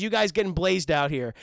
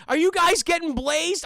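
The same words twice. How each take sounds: First: Said in the usual way. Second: High, loud cartoon slacker quote; raised-pitch cartoon impression, punched louder; Shaggy. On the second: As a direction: put on the goofy stoner sidekick. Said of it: "first line dialogue from Shaggy's mouth is".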